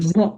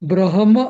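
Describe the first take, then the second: First: The h sound is very subtle and light. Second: The h sound comes out clearly and prominently. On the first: The speaker calls it right. "ब्रह्म असं subtle अगदी" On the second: The speaker calls it wrong. "कोणी कोणी असं ब्रह्म असं म्हणतात ना ते एकदम चुकीचं आहे"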